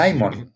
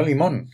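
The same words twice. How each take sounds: First: LIMÓN como "LAI-mon", a la inglesa; pronunciación americana. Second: Said in the usual way. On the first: Shown as a demonstration. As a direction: stress the first syllable of "Limón", said LAI. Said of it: "Porque se dice". ("Limón" dicho LAI-mon, a la americana) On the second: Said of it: "no Limón".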